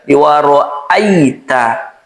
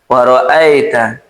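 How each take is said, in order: First: The diphthong glides clearly toward a y sound. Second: The diphthong vowel leans toward an e sound. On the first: The speaker calls it right. "pastikan mengarah ke uh, ya sukun" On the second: The speaker calls it wrong. "Jangan sampai dimiringkan ... atau terkesan imalah"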